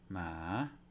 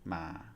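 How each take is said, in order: First: The pitch rises across the syllable. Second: The pitch stays low across the syllable. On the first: "Here we have rising tone" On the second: "the low tone"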